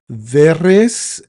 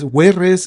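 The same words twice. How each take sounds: First: The name is said with post-classical Latin sounds. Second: The name is said with classical Latin sounds. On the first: "which is the post-classical pronunciation" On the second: "is the uh, classical form"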